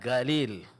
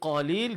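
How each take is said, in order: First: The word starts with a g sound. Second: The word starts with a deep q sound.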